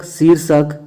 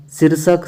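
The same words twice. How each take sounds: First: शीर्षक with a long "seer". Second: शीर्षक with a short first i. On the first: Teacher correcting students, long ee in शीर्षक. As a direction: stretch the first vowel of शीर्षक. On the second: Teacher showing the error, short i in शीर्षक. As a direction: say शीर्षक with a quick "sir". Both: Shown as a demonstration. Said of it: "बड़ी की मात्रा".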